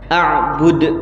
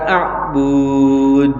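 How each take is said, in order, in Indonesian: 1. Vokal di suku kata terakhir pendek. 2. Vokal di suku kata terakhir dipanjangkan. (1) "ketika diwakaf ba-nya dibaca pendek" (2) "bukan a'bud, salah"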